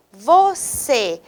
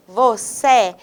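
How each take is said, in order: First: VOCÊ with a closed final ê. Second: VOCÊ mispronounced with an open final é. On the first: Teacher showing students the circumflex, closed ê in VOCÊ. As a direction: say VOCÊ with a close-mid e at the end. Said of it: "mais fechado". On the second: Teacher contrasting the acute accent, open é in VOCÊ. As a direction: end VOCÊ on an open e, like "vocé". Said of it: "ao invés do agudo". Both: Shown as a demonstration.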